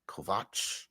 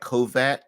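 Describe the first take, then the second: First: The name ends with a ch sound. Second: The name ends with an s-like sound. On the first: The speaker calls it right. "but it's actually Vach" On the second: The speaker calls it wrong. "it looks like"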